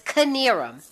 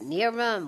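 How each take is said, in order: First: The name starts with a K sound. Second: The name starts with an N sound. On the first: The speaker calls it right. "But it's Kinnearum" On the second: The speaker calls it wrong. "Is it Nearum?"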